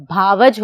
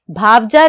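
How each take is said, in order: First: भावज said bhaa-vaj with no final vowel, lower; भावज, the right way; correct form bhaavaj. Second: भावजा said with a final -a, bhaav-ja; भावजा as the mistake; wrong form bhaavja. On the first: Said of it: "भावज होता है". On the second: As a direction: stress the wrong ending in भावजा. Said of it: "भावजा नहीं होता". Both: Shown as a demonstration.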